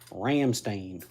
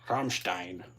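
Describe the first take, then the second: First: The name is said in a hillbilly style. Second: The name is said in a plain, standard way. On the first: It is said this way just for fun. "like a good old fashioned hillbilly" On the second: This is the name's proper pronunciation. "I assume it's Rammstein"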